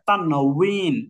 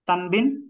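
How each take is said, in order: First: The middle consonant is a w sound. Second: The middle consonant is a b sound. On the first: The speaker calls it right. "এটা তানউইন।" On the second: The speaker calls it wrong. "তানবিন না"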